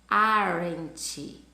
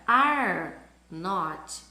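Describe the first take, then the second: First: The two words are joined into one. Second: Said as two separate full words.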